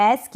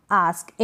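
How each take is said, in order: First: आस्क with front "ae", "aesk"; alternative pronunciation. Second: आस्क with long back "aa", pitched lower; low, falling आस्क with broad a; alternative pronunciation. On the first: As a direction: say आस्क with open ऐ vowel. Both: Shown as a demonstration. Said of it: "दोनों pronunciation correct".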